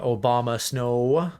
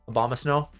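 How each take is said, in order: First: The name begins with an 'oh-bah' sound. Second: The name begins with an 'ab-om' sound. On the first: The speaker calls it wrong. "I said that wrong" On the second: The speaker calls it right. "A bomb, like abominable. ... There"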